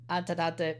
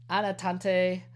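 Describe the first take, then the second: First: Anatante with a stray T after the first N, "Antatante"; misspoken title. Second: Said in the usual way. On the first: Real, not acted. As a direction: stumble on Anatante as "An-ta-ta-te".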